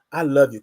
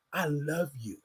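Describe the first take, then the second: First: Said in the usual way. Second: Barely above a breath, tender and low; soft self-affirmation. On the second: Shown as a demonstration. Host guiding listeners to whisper love to themselves, hushed. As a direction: say it softly to yourself like a private promise.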